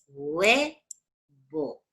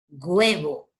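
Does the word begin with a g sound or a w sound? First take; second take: w sound; g sound. First: The word begins with a w-like sound. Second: The word begins with a g sound. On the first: The speaker calls it right. "que es como suena huevo, sonaría así" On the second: The speaker calls it wrong. "No suena como G, hay un montón de chicos que pronuncian huevo así"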